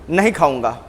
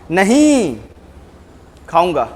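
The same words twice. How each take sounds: First: It sounds like a refusal to eat. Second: It sounds like agreeing to eat.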